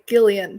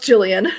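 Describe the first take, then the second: First: The name starts with a hard G sound. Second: The name starts with a soft J sound. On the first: The speaker calls it wrong. "I always want to say it like a hard G" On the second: The speaker calls it right. "I'm pretty sure it's pronounced Jillian"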